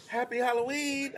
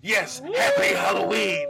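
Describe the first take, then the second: First: High, soft imitation of wife; wife's greeting. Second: High, slow mock-monster shout; scary greeting. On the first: Imitating wife greeting a small girl at the door, high-pitched. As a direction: chirp it sweetly high, imitating her. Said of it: "Wife's at the door". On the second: Hidden host scaring a three-year-old after wife's greeting, spooky shout. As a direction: boom it out, stretched and spooky.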